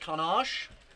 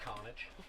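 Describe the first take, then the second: First: It is pronounced with a French-sounding twist. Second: It is pronounced as the plain English word. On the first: This is how people commonly say the name. "I say it like that because that's all I've heard people say it like" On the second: This is the name's technically correct form. "It's technically just Carnage"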